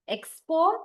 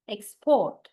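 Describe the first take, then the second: First: Export as a noun, EX-port, first syllable stressed. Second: Export as a verb, ex-PORT, second syllable stressed. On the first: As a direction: lean on EX in Export, pitch climbing at the end. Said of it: "noun set always we stress the first". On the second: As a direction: punch PORT in export, falling tone. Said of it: "verb set we always stress the second". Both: Shown as a demonstration.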